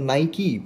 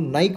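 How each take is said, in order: First: It ends with a final 'ee' sound. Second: It ends without a final vowel sound.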